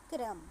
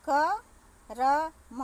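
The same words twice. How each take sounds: First: क्रम said short with क and र fused; joined क्रम. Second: करम stretched very slowly, every vowel sounded; drawn-out करम. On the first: Teacher gives the joined क्रम after the stretched version. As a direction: say क्रम in one quick cluster, no vowel between. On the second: Teacher stretches करम slowly for pupils before joining it. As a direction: spell out करम syllable by syllable, slow and loud. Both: Shown as a demonstration. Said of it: "हम क्या लिख देते हैं".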